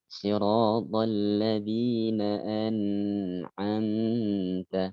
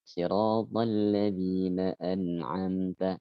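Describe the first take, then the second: First: A nasal sound is held in 'an'amta'. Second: No nasal sound is held in 'an'amta'. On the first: The speaker calls it wrong. "Seringkali di sana ditahan bacaannya" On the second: The speaker calls it right.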